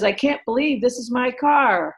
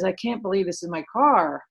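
First: It sounds delighted and happy. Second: It sounds upset and dismayed.

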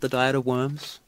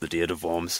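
First: Worms sounds like the English word worms. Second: Worms sounds unlike the English word worms. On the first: The speaker calls it wrong. "That's how it's written" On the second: The speaker calls it right. "but it's pronounced the Diet of Worms"

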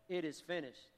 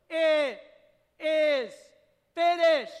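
First: It sounds weak and defeated. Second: It sounds strong and triumphant.

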